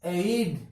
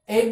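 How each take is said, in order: First: एड said slowly and carefully, the right way; slow correct pronunciation. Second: एड said the usual wrong way; wrong pronunciation. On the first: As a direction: correct एड, drawn out. (एड का सही उच्चारण धीरे से) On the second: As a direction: give the common mistaken एड. (एड का गलत उच्चारण) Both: Shown as a demonstration. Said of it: "नहीं, एड।".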